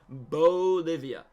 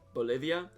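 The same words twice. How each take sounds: First: The first syllable is drawn out and rounded. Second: The first syllable is said quickly and plainly. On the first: "I really over-enunciate the bo" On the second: "even though it's just Bolivia"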